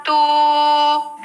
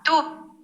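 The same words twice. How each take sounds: First: A long, high hooting toot; long train horn. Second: A quick, high, soft toot; short train horn. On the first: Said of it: "que lo hago con la voz". (bocina larga de tren, aguda y sostenida) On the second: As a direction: cut the horn call short like a small train. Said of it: "toca una bocina corta". (bocina corta de tren, aguda y breve) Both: Shown as a demonstration.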